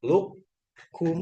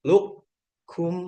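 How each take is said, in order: No difference in how they are said.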